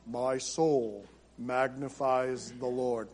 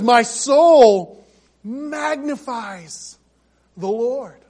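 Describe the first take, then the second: First: It is said in a flat, somber monotone. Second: It is said with bubbling, joyful excitement.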